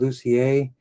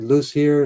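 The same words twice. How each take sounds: First: The name is said with a French pronunciation. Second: The name is read the way it is spelled. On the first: This is how the name really goes. The speaker calls it right. "It's actually ... it's not pronounced like it's spelled, which is typical for French" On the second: This is how people usually say it. The speaker calls it wrong. "It's usually said"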